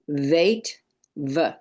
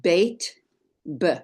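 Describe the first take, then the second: First: "Veit" with a soft v, then "v" alone; soft non-dagesh sound. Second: "Beit" with a hard b, then "b" alone; hard dagesh sound. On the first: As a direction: say "Veit", pause, then a short isolated "v". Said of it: "and the soft non-dagesh version". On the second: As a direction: say "Beit", pause, then a short isolated "b". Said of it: "the hard dagesh version". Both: Shown as a demonstration.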